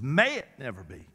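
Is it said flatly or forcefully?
forcefully. It is said forcefully, with strong emphasis.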